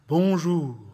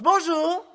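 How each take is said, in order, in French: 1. Il est dit bas, avec une résonance dans la poitrine. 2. Il est dit avec une résonance serrée, un peu gutturale. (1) "Voix de poitrine" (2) "Et avec la voix de gorge"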